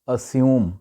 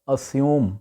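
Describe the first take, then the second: No difference in how they are said.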